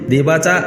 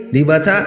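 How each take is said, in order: No difference in how they are said.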